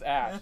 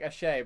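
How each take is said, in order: First: The name is said with one syllable. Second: The name is said with two syllables. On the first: The speaker calls it right. "It's pronounced Ash" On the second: The speaker calls it wrong. "I keep wanting to pronounce it as Ashay"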